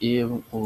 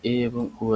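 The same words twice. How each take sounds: The two takes are said the same way.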